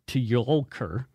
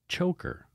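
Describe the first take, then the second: First: The name starts with a ty sound. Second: The name starts with a ch sound. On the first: The speaker calls it wrong. "I would sound like a, a boob" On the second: The speaker calls it right. "it's pronounced like choker"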